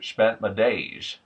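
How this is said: The S and Z sounds are lisped like SH. "it becomes something closer to"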